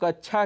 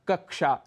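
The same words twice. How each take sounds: First: The middle cluster is said as chh. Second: The middle cluster is said as ksh. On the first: The speaker calls it wrong. "जिसे हम कक्षा कह जाते हैं" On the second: The speaker calls it right. "उदाहरण के लिए कक्षा"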